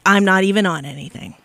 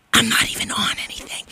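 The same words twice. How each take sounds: First: Said in the usual way. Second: Hushed, confiding whisper; whispered aside. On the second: Real, not acted. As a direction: whisper it like a secret confession. Aside, then repeated as catchphrase.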